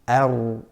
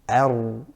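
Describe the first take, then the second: No difference in how they are said.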